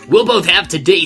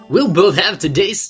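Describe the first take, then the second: First: It is said in the speaker's usual voice. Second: It is said in an imitated character voice.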